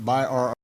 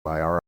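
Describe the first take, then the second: First: The two words are said slowly and separately. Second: The two words are said faster and linked.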